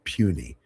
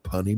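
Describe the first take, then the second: First: The first syllable sounds like 'pew'. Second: The first syllable rhymes with 'sun'. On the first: The speaker calls it right. "That's pronounced puny" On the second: The speaker calls it wrong. "I said, "Punny mortals.""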